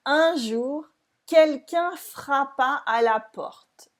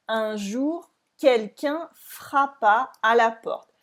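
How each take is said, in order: First: "Un jour, quelqu'un frappa à la porte" read slowly with no linking; no liaison. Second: "Un jour, quelqu'un frappa à la porte" read slowly, words unlinked; no liaison. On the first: Teacher reading slowly to show there is no liaison. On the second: Teacher rereading the line slowly to show no liaison. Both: Shown as a demonstration. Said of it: "Here there is no liaison".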